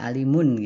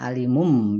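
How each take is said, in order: First: The word ends with an n sound. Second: The word ends with an m sound. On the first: This is the original underlying ending. "kita melihatnya nun ya alimun" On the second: Recitation rules change the ending before the next word. "kalau tajudnya kita alimum"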